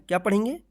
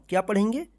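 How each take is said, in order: Both takes have the same delivery.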